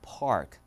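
The r sound is pronounced. "미국은"

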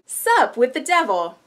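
The emphasis shifts, stressing the opening word. It sounds like a talk show hosted by Satan.

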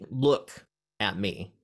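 The word 'look' is stressed. Use your eyes rather than another sense. "don't listen to me, or don't like whatever"

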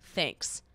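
It is said flatly, sounding annoyed.

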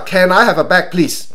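The pitch stays flat in a blunt way. Listeners feel they are being ordered. The speaker calls it wrong. "佢係咁啊"

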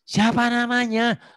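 The voice is full and resonates from the chest. The speaker calls it right. "suara dada nih, suara perut ya"

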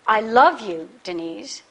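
The stress falls on the word love. The speaker feels love, not just liking. "I don't just like you"

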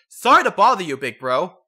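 It is said in a deep, manly voice.

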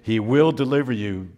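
It is said as a firm, emphatic exclamation. The speaker is confident that rescue will come. The speaker calls it right. "no, exclamation point"

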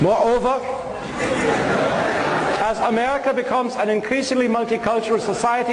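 It is read in a put-on German accent.

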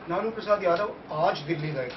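The stress falls on the word aaj. He went today, not on another day. "कल नहीं गए थे, कल नहीं जाएंगे"

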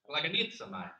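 The word is said in an Italian accent.

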